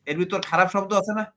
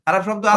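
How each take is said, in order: First: Said in the usual way. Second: Louder and higher, pushing for an answer; insistent question. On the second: Real, not acted. Host presses the guest for an answer, insistent and louder. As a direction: demand it, louder.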